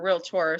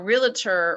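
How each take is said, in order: First: The word is said in a careful, standard way. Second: The word is said in a casual, nonstandard way. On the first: The speaker calls it right. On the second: The speaker calls it wrong.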